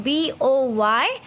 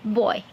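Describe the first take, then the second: First: Put-on slow dictation of the letters of BOY; spelled out slowly. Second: Said in the usual way. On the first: Shown as a demonstration. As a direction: spell it out for the children to copy. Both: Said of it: "cloud of common noun".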